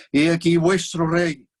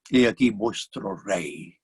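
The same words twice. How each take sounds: First: Slow, loud proclamation to the crowd; Pilate proclaiming. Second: Pilate, wry presentation. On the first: Pilate shows Jesus to the crowd, slow loud proclamation. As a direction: announce him grandly, drawing it out. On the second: Pilate shows a beaten man to the crowd, slow wry presentation. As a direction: offer him up as an unlikely king. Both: Acted.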